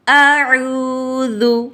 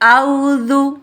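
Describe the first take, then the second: First: It opens with a hamza and a throaty ain sound. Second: It opens with a plain diphthong, no throat consonant. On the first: The speaker calls it right. "दुरुस्त अदायगी कैसे है?" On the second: The speaker calls it wrong. "हमज़ा और आइन को ख़त्म करके वावलीन पढ़ती है"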